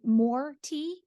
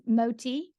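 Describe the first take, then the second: First: The r sound is clearly pronounced in 'more'. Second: The r sound is dropped, giving 'mo tea'.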